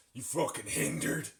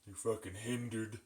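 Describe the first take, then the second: First: Forceful insult. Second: Said in the usual way. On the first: Shown as a demonstration. Streamer showing how the new insult has to be said, forceful. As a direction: punch out FUCKING HINDERED, rising at the end. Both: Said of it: "have to say it like that".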